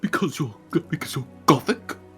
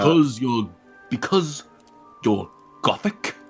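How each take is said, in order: First: It is said in a small, afraid voice. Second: It is said in a plain, ordinary voice.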